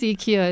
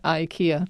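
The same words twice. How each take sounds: First: IKEA is said the original, non-American way. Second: IKEA is said the common American way. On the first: This is the name's real pronunciation. The speaker calls it right. "it really is IKEA" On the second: This is how some Americans say the name. The speaker calls it wrong. "not IKEA"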